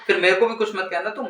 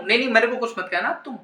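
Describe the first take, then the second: First: Said in the usual way. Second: Faster, insistent "नहीं, नहीं"; fast huffy repeat. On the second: Real, not acted. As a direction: rattle it off in a sulk. (तेज़, रूठकर दोहराते हुए)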